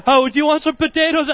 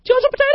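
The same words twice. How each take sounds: First: Higher, laughing-edged nervous retake; nervous offer. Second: Put-on much higher, squeaky, scared kid voice; nervous squeaky offer. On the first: Retold or imitated. Kid repeating the offer through laughter, nervous and higher. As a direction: blurt it again, embarrassed. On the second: Scared kid offering potatoes to a scary stranger, squeaky. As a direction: squeak it out in panic. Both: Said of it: "I'm like".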